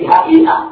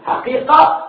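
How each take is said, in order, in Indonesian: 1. Konsonan di tengah itu hamzah. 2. Konsonan di tengah itu bunyi q yang dalam.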